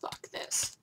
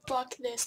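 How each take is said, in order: First: Breathy under-the-breath curse; whispered curse. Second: Said in the usual way. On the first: Real, not acted. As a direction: hiss it quietly to yourself. Muttered curse, then repeated.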